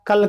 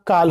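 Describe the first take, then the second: First: Said in the usual way. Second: काल with the vowel stressed and stretched to a long aa. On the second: Shown as a demonstration. Teacher showing students how stress changes meaning, काल with stressed long aa. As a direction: lean on the aa in काल, holding it long. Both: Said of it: "किसी अक्षर पर जोर देने".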